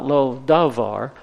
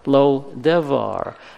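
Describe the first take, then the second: First: The middle vowel sounds like 'ah'. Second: The middle vowel sounds like 'eh'. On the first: It is the town's real name. The speaker calls it right. "The recaptured town's name is Lodavar" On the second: It means nothing, a deliberate mocking twist. The speaker calls it wrong. "Amos pronounces the name as Lodevar"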